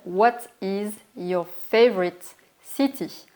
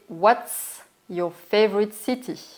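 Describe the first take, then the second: First: 'What is' is said as two full words. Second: 'What is' is shortened to one syllable.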